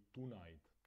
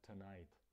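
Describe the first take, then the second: First: The stress is on the first syllable. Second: The stress is on the second syllable. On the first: The speaker calls it wrong. "Češi často vyslovují tonight" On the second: The speaker calls it right. "Správná výslovnost je tonight ... přízvuk je na tom night"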